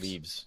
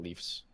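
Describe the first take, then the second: First: The word is said with a V sound. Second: The word is said with an F sound. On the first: The speaker calls it right. "It's a V" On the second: The speaker calls it wrong. "not an F"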